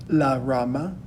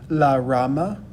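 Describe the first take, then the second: Both takes have the same delivery.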